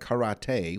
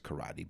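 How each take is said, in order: First: It is said with a fancy, foreign-sounding pronunciation. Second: It is said with the ordinary everyday pronunciation. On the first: "I just figured I'd get a little fancy" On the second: "I know it's karate"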